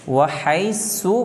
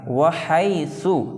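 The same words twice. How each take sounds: First: The middle consonant is a plain thin s. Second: The middle consonant is a soft th sound. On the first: The speaker calls it wrong. "सीन" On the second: The speaker calls it right. "यहाँ पर सा है"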